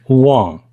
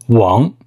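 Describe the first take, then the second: First: The name is said in an anglicized way. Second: The name is said in a Mandarin-like way. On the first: The speaker calls it wrong. "Some of you guys pronounce it like Wang. That's wrong" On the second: The speaker calls it right. "It's Wang"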